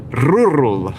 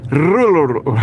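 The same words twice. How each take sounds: First: Rural with a trilled R up front, rrural; rolled R rural. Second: Rural with a trilled R, said as rul; rolled R rural. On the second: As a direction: roll the R hard in rural. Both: Shown as a demonstration. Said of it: "If you roll your R's when you say rural".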